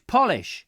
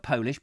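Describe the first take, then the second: First: Polish with a short O, as in shoe polish, punched loud and high; corrected Polish. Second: Polish with a long O, like "pole-ish"; mispronounced Polish. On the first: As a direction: hit "Polish" as POL-ish, the wax. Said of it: "not Polish". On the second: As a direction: say "Polish" as in the nationality, POH-lish. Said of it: "no, not Polish". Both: Shown as a demonstration.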